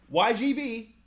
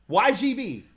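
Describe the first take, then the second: Both takes have the same delivery.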